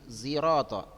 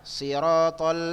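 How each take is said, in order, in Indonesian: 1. Kata ini diawali dengan bunyi Z. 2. Kata ini diawali dengan bunyi S emfatis. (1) "Tapi ada tulis yang lain zi" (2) "Si, sod kan?"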